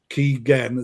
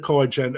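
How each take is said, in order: First: The first syllable has an 'ee' vowel, like 'key'. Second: The first syllable does not have an 'ee' vowel. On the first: The speaker calls it right. "It's actually Keigen, as in Kevin Keegan" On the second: The speaker calls it wrong. "I've been pronouncing it wrong"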